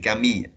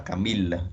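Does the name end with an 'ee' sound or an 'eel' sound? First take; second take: ee sound; eel sound. First: The ending is said as 'i', with no l. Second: The ending is said as 'il', with an l. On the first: The speaker calls it right. "Ça se prononce I. C'est Camille" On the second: The speaker calls it wrong. "Ce n'est pas il. C'est pas Camille"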